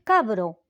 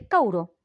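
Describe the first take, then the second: First: The b sound is clearly pronounced. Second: The b sound is dropped, leaving a vowel. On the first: "ya ni siquiera es cabro" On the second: "es cauro"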